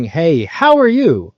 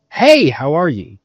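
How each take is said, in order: First: "how are you" held high and drawn out; different intonation. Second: "Hey" punched and drawn out, then falling; different intonation. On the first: Sales coach contrasting inflections for a rep, slow, lifted "how are you". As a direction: lift "how" and stretch the greeting slowly. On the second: Sales coach contrasting inflections for a rep, strong falling "Hey". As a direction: hit "Hey" hard, let "how are you" drop. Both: Shown as a demonstration. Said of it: "Those are very different".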